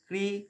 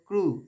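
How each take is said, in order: First: The syllable is said with an 'i' vowel. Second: The syllable is said with a 'u' vowel. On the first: The speaker calls it wrong. "ক্রি বলবো না" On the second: The speaker calls it right. "ক্রু বলবো"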